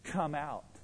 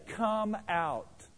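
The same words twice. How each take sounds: First: It is said mildly, without force. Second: It is said loudly and forcefully.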